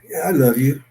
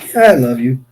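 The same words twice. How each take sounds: First: It sounds menacing, like a threat to kill. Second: It sounds dismissive, like a rejection.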